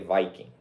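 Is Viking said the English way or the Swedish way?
English. The word is said the usual English way. The speaker calls it wrong. "don't say Viking"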